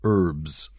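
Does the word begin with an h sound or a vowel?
vowel. The word begins with a vowel, no h. "what we say herbs"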